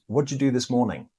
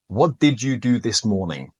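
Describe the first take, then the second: First: "What'd you" run together like "whatcha"; casual native-speaker "What'd you do"; reduced conversational form. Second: Every word said separately and fully; did pronounced fully, not reduced; careful full form. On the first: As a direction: blend "What'd you" into one quick sound, did disappears. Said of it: "So this becomes". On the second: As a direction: say "What did you do this morning?" with each word clear and complete. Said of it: "if we're pronouncing each word perfectly". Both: Shown as a demonstration.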